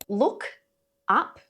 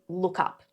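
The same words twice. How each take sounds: First: The two words are said separately. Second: The two words run together as one. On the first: The speaker calls it wrong. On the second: The speaker calls it right.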